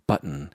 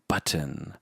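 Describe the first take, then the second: First: It is said in a lower-class way. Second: It is said in an upper-class way. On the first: The speaker sounds like they belong to a lower class. The speaker calls it wrong. "You don't say" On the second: The speaker sounds like they belong to an upper class. The speaker calls it right. "you say"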